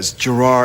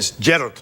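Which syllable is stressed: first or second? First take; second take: second; first. First: The stress is on the second syllable. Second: The stress is on the first syllable. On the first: This is how it is said in America. "but here in America, it's Gerard" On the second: This is how it is said in Scotland. "In Scotland, it's Gerard. It's the emphasis on the first part"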